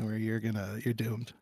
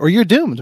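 First: It is said in a dark, ominous minor key. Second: It is said in a light, casual tone. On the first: It sounds like a grave warning. The speaker calls it wrong. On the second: It is meant seriously but without pressure. The speaker calls it right.

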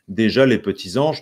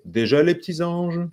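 First: Every sound is pronounced, with no elision. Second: A sound is dropped through elision. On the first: The speaker calls it wrong. "Ce n'est pas" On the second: The speaker calls it right. "il y a une élision"

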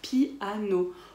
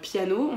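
First: The vowels 'i' and 'a' are split apart. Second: The vowels 'ia' are joined in one syllable. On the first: "on va dire piano" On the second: "au lieu de dire piano"

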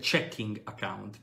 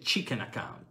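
First: The first vowel is open, like in check. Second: The first vowel is short, like in chicken. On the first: This is the phrase that was actually meant. The speaker calls it right. "lui vuol dire checking account" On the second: Someone with an Australian accent says it this way. The speaker calls it wrong. "e poi dice chicken account"

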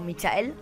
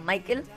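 First: The name is pronounced the Spanish way. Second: The name is pronounced the English way.

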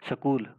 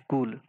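First: A vowel is inserted between s and k. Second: The word starts with an sk cluster. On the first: "स्वर भक्ति, कहेंगे क्या इसको" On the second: "ये है स्कूल"

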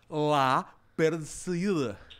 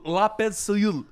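First: The words are said separately, one by one. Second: The words are run together into one stream.

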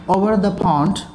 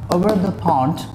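Both takes have the same delivery.

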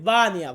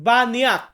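First: The word ends without any k sound. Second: The word ends with a clear k sound. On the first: The speaker calls it right. "এইখানে কের উচ্চারণটা হবে না, এটা হবে বানিয়া" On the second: The speaker calls it wrong. "অনেকে আবার এই মালয় লেখাটা দেখে বলবেন বানিয়াক"

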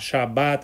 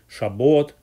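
First: The last vowel sounds like A. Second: The last vowel sounds like O. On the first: This is the Israeli and Sephardic Jewish pronunciation. "произносят ее как букву А" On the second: This is the Ashkenazi, Bukharan and Iranian Jewish pronunciation. "часто произносят букву О во многих словах, как"

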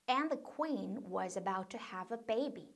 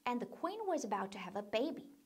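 First: The sentence is spoken at a slow pace. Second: The sentence is spoken at a faster pace. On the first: "천천히 먼저 따라해 볼게요" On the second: "조금 더 빨리"

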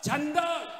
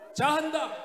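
First: It is said quickly, squeezed into two syllables. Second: It is said fully with three syllables.

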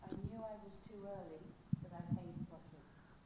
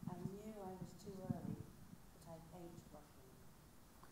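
First: It is said at a normal pace. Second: It is said slowly, taking time.

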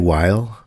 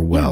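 First: The word sounds like 'while'. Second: The word sounds like 'well'. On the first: "Do you say while or well?" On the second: "I kind of say well for while"

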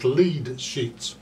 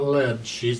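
First: Lead has a long vowel, rhyming with bead. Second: Lead has a short vowel, rhyming with bed. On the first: It names sheets that guide the melody. The speaker calls it right. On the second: It names sheets of the metal. The speaker calls it wrong.

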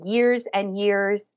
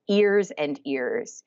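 First: Each word starts with a clear Y sound. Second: Each word starts with a vowel, no Y. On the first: The speaker calls it right. "words like years with the Y sound" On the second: The speaker calls it wrong. "they often will say ears"

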